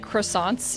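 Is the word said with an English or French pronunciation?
English. It is said with an English pronunciation. The speaker calls it wrong. "you don't say croissants"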